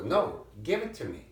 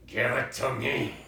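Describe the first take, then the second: First: Said in the usual way. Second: Repeated through a laugh. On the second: Real, not acted. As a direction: ask again, laughing at her.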